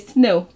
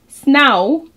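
First: The vowel sounds like 'o' in go. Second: The vowel sounds like 'ow' in cow. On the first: The speaker calls it right. "then they will say snow" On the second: The speaker calls it wrong. "They would say snow. And if that didn't sound right"

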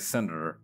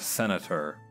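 First: The syllables are slurred together. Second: The syllables are pronounced clearly. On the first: The speaker calls it wrong. "sometimes I tend to slur my words together. Like, I remember I used to say senator" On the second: The speaker calls it right. "instead of senator"

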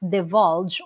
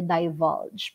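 First: The first vowel is a short i sound. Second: The first vowel is a long i sound. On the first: "Pwedeng short I" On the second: "pwedeng long I"

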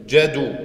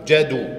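No difference in how they are said.

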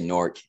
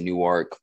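First: The word is said as one syllable. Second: The word is said with two syllables. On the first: This is how locals say the name. "when you're from there, you say Newark. It's N-O-R-K" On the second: This is how outsiders say the name. "if you're not from there, you might pronounce it Newark"

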